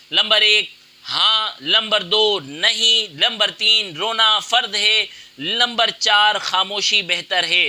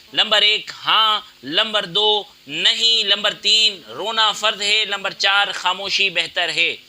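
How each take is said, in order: The two takes are said the same way.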